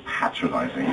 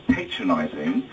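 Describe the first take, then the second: First: "patronizing" with a short first a, PAT-ro-nizing; British pronunciation. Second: "patronizing" with a long first a, PAY-tro-nizing; slow "patronizing", first syllable like "pay"; American pronunciation. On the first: Brit correcting what you say, "patronizing" as PAT-ro-nizing. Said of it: "it's called patronizing". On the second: Brit showing how you say "patronizing", as PAY-tro-nizing. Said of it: "You say patronizing". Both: Shown as a demonstration.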